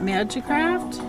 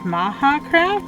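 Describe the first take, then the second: First: The middle consonant is a J sound. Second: The middle consonant is an H sound. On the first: "because it's with the J" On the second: "It's uh, Spanish?"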